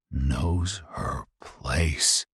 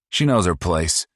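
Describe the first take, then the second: First: Very slow incredulous repeat of "Knows her place?"; disbelieving echo. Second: High, loud, smug put-down; smug cruel boast; sneering son. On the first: Real, not acted. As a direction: drag it out in disgust. Narrator echoes in disbelief. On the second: Acted. Paul voiced, sneering.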